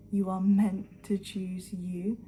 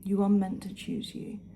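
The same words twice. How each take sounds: First: "meant" stretched and leaned on, each word slow; slow, emphatic. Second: Said in the usual way. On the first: Shown as a demonstration. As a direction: land "You are meant to choose you" slowly and firmly.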